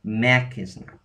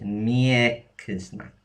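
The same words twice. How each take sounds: First: "makiznak" with a hard m, no y after it; unpalatalized. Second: "miekiznak" drawn out, with a clear y-glide after the m; palatalized. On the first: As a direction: say "makiznak" starting with a plain "ma". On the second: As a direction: say "miekiznak" slowly, starting "myeh". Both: Shown as a demonstration. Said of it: "Without the palatalized, it would be".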